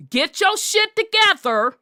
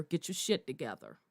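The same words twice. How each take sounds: First: Raised demand to get it together. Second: Low, fast and much softer, almost under the breath; hushed quick scolding; muttered order. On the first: Challenging intimidated men. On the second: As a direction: drop the voice and mutter the command quickly. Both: Acted.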